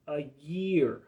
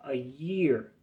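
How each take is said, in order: Both takes have the same delivery.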